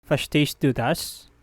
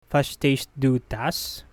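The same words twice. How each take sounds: The two takes are said the same way.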